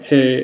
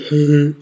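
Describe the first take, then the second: First: It is said in the speaker's plain voice. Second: It is said in a douchey put-on voice.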